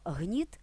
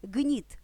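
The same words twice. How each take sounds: First: «гніт» with a soft fricative h, like "hnit". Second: «гніт» with a hard plosive g, like "gnit". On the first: Teacher gives the word for oppression, fricative h. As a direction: breathe the start of «гніт» as h. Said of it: "перше слово". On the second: Teacher gives the word for a wick, plosive g. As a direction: hit «гніт» on a stop g. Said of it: "а друге". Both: Shown as a demonstration.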